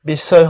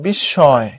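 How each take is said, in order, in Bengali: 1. মাঝের ব্যঞ্জনটি একটি সাধারণ 's' ধ্বনি। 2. মাঝের ব্যঞ্জনটি একটি দ্বিত্ব 'sh' ধ্বনি। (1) "বিস্ময় হবে না" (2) "এটা হবে বিস্ময়। তলব্য শ"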